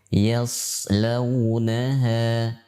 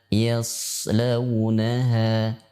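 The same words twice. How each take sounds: The two takes are said the same way.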